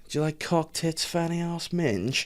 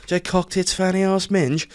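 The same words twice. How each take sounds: First: Higher, softer, memorized-list sales pitch; imitating the rep. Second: Higher, recited like a memorized list; imitating the rep. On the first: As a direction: rattle it off like a rehearsed line. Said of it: "then he goes". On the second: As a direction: reel it off word by word like a script. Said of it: "he had memorized".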